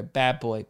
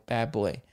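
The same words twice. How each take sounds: First: A hint of scolding a naughty child, softly; a mild mock reprimand aimed at yourself; self-scolding. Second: The "bad boy" repeat dropped even quieter; a faint mock reprimand trailing off to yourself; softer self-scolding. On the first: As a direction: mutter a little telling-off to yourself, eyes down. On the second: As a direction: let the second "bad boy" fade into a hushed, embarrassed echo. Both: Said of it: "I blush and then I look down at my feet and I go".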